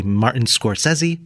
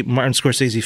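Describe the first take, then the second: First: Scorsese said "skor-SEZ-ee"; SCORSESE with short E. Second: Scorsese said "skor-SAY-zee"; SCORSESE with long AY. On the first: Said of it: "Some people like to say". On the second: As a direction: give Scorsese a long "say" in the middle. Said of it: "I do not". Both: Shown as a demonstration.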